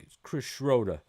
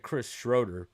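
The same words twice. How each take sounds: First: Imitated Boston accent, R dropped from Schroeder; a rough go at a Boston accent. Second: Said in the usual way. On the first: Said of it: "but he's like". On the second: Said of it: "Like he said Chris Schroeder, but he's like".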